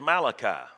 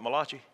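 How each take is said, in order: First: The name is said with a plain English accent. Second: The name is said with an Italian-style accent. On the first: The speaker calls it right. "It's Malachi" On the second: The speaker calls it wrong. "that Italian prophet"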